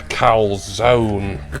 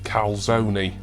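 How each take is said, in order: First: It is said with a plain English pronunciation. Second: It is said with an Italian-style pronunciation.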